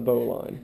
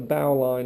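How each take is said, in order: First: 'Bow' is not said as in a ship's bow. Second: 'Bow' is said as in a ship's bow. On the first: This is how most people name the knot. The speaker calls it wrong. "not the bow line" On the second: The knot is named for tying sails to a ship's bow. The speaker calls it right. "So I prefer to call it the bow line"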